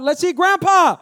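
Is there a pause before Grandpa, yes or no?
no. It is said without a pause before Grandpa.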